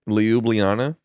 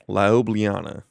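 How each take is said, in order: First: The first syllable sounds like "lee". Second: The first syllable sounds like "lie". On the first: "Oh, Lee" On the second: "So is it lie?"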